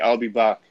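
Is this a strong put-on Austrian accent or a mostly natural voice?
natural voice. It is said mostly naturally, with only slight coloring. "Even if I don't try saying that in an Arnold Schwarzenegger accent, it's there a little bit"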